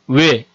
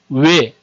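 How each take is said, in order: First: A gliding vowel with lips changing shape. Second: The same.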